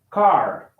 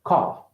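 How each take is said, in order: First: Car with the final R clearly sounded; American pronunciation. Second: Car with the final R dropped; non-rhotic ending on Car; British pronunciation. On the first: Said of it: "R sounds are always, uh, clearly pronounced". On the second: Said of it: "Okay, British?". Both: Shown as a demonstration.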